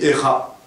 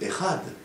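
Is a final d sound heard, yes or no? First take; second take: no; yes. First: The word ends on a vowel without d. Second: The word ends with an audible d. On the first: The speaker calls it wrong. "on n'a pas entendu le Dalet" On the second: The speaker calls it right. "Il faut dire Echad"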